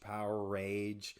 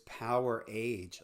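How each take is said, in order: First: The second part sounds like 'rage', with an r. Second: The second part sounds like 'age', without an r. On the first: The speaker calls it wrong. "A lot of people say" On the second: The speaker calls it right. "like the age of power"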